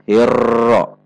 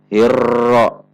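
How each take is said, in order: The two takes are said the same way.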